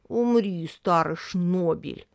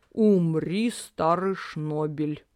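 First: Sad imitation of father. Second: Peaceable. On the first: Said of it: "грустно сказала Рин папиным тоном". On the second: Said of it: "мирно сказал папа". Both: A narrator's reading.

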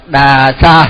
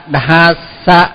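First: "Đà Sa" with a plain D and long vowel; đọc dễ, mất H. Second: "Đà Sa" said as "đ-hà-sa", H sounded; âm đ-h khó đọc. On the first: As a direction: say "Đà Sa" the easy way, no H. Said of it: "thì nó dễ hơn". (đọc "Đà Sa" kéo dài, bỏ âm H) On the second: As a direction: draw out "Đà Sa" with a breathy H after the D. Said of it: "thì nó hơi khó đọc". (đọc "Đà Sa" thành "đ-hà-sa", có âm H) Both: Shown as a demonstration.

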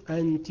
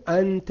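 First: أنت said with kasra on the ta, as anti; أنت ending on a short i, feminine form. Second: أنت said with open final ta, as anta; أنت ending on a short a, masculine form. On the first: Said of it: "ثم تقول أنت هكذا". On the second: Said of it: "تقول أنت هكذا للمذكر". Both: Shown as a demonstration.

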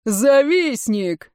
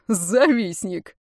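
First: Slow, drawn-out crowd cry; shouted jeer. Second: Drawn-out, contained taunt; mocking jeer. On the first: Water warriors crying out as one, shouted jeer. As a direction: call the insult out, stretched. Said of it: "в едином порыве закричали". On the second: Регинис laughing at his rival, mocking jeer. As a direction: stretch the insult slowly with scorn. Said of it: "Регинис снова расхохотался". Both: A narrator's reading.

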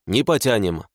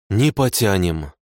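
First: Said in the usual way. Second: Low gloomy mutter of defeat. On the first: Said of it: "Лоб в лоб, конечно, не потянем". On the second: A narrator's reading. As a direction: say it heavily, without hope. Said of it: "угрюмо произнесла она".

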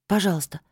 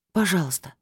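First: Said in the usual way. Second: Pleading without much hope; hopeless plea. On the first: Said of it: "вновь попросила я". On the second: A narrator's reading. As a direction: ask knowing the answer is no. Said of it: "вновь попросила я без особой надежды". (просьба без надежды)

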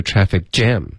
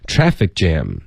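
First: "traffic jam" with the weight moved onto jam; wrong stress. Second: "Traffic jam" with weight on Traffic, jam falling lower; correct compound stress. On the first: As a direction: mimic a learner leaning on "jam". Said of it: "重音". (模仿错误重音，“traffic jam”重读jam) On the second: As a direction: lead on "Traffic", let "jam" drop. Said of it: "不是traffic jam". (“Traffic jam”重音在前，后面降下) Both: Shown as a demonstration.

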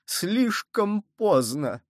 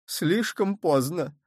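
First: Higher, very slow anguished repeat; despairing. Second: Slow, drawn-out despair. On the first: Cardinal repeating his despair, higher and slower. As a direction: stretch it out in dismay. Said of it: "хватаясь за голову". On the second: Cardinal in despair that it is too late. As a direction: groan it out, clutching your head. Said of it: "сказал Мазарини, хватаясь за голову". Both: A narrator's reading.

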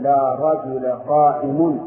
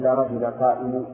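First: قائم said slowly with nunation, qaimun; slow, stressed قائم ending in -un; correct form. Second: قائم without nunation, qaimu; wrong form. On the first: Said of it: "ولهذا تقول". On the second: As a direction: say قائم cut short as qaimu, no n. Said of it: "ولا تقول". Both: Shown as a demonstration.

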